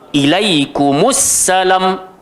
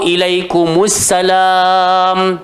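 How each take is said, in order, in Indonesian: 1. Suku kata terakhir dipotong pendek secara tiba-tiba. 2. Suku kata terakhir dipanjangkan. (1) "kena handbrake" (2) "tak boleh baca macam tu"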